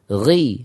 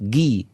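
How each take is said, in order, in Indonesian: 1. Awalnya frikatif serak dari tenggorokan. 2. Awalnya hanya stop g keras biasa.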